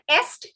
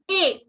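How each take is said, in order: First: The s and t are pronounced. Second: The s and t are silent. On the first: The speaker calls it wrong. "it is not est" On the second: The speaker calls it right. "the S and T are silent"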